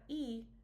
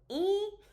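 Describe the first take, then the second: First: The vowel is plain, not high or nasal. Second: The vowel has a high tone and is nasal. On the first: The speaker calls it wrong. "so it's not E" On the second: The speaker calls it right. "but then it's also nasal, so it's E"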